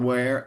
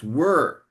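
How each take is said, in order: First: The vowel sounds like the vowel in 'air'. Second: The vowel sounds like the vowel in 'her'. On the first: The speaker calls it wrong. "it's not where" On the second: The speaker calls it right. "it's were"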